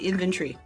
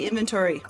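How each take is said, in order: First: It is said with a British pronunciation. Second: It is said with a non-British pronunciation. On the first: "that's a U K thing. They say inventory" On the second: "They don't say inventory"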